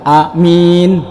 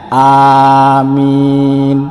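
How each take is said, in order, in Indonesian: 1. Vokal pertama pendek, vokal kedua panjang. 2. Vokal pertama dan kedua sama-sama panjang. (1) "alifnya pendek dan mimnya panjang" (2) "alifnya panjang, mimnya panjang, ini baru benar"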